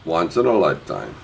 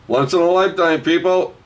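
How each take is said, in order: First: Said in the usual way. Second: High, called-out sales slogan; high barker-like pitch; hawking to the crowd. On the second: Real, not acted. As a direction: call it out high to all the buyers.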